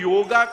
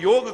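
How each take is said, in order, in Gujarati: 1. શબ્દના અંતે એક સ્વર ઉમેરાય છે. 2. શબ્દ g ના અવાજથી પૂરો થાય છે, કોઈ સ્વર નથી. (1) "યોગા વર્ડ જ ખોટો છે" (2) "આપણે તો યોગ બોલે"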